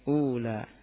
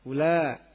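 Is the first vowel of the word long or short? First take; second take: long; short. First: The first vowel is drawn out long. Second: The first vowel is said short. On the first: "Sebagian orang ada yang membaca panjang ya" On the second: "dengan qasr"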